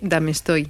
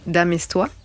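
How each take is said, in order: First: The name is pronounced the Spanish way. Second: The name is pronounced the French way.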